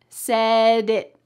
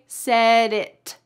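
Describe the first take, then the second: First: The final T is stopped without releasing air. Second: The final T is released with a burst of air. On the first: The speaker calls it right. "So it's going to sound like this. ... My tongue is stopped up here" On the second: The speaker calls it wrong. "I didn't say said it"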